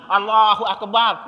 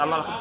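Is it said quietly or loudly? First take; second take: loudly; quietly. First: It is said loudly and openly. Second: It is said quietly, almost silently.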